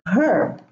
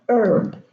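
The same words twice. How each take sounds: First: The word starts with an audible H sound. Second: The word starts with a vowel, no H sound. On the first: The speaker calls it wrong. "Many people say herb and herbal. This is wrong" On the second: The speaker calls it right. "all the H's here are silent"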